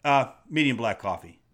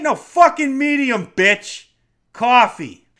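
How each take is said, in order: First: Said in the usual way. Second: Loud, higher, hostile coffee order; rude, forceful outburst; aggressive order. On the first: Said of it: "You just be like". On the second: Shown as a demonstration. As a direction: snap the order at the barista. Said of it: "you don't have to say it like that".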